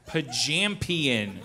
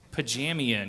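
First: The word is said with the 'p' sound. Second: The word is said without the 'p' sound. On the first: The speaker calls it right. "high five to you with how you pronounced it" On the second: The speaker calls it wrong. "You kept leaving the most explosive letter out"

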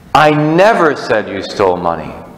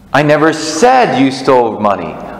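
No difference in how they are said.

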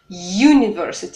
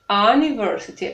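First: The word begins with a y sound. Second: The word begins with a plain vowel sound. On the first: The speaker calls it right. "Е – это часть данного звука U" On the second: The speaker calls it wrong. "произносим мы это слово не university"

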